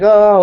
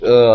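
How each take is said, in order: First: It sounds wild and excited. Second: It sounds drained and tired.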